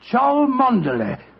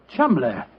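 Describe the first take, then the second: First: The name is said syllable by syllable, as spelt. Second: The name is said in two short syllables. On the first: This is how a stranger would read the written name. "That name's spelt C H O L, Chow, M O N, Mon, D E, Der, L E Y" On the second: This is how the name is really said. "the name Chumley is in no way pronounced the way it is spelt"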